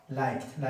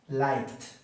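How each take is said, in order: The two takes are said the same way.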